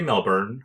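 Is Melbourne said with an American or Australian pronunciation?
American. The name is said with an American pronunciation. "I feel like Americans say Melbourne"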